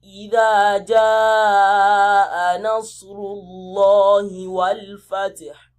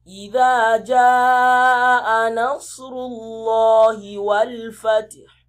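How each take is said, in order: No difference in how they are said.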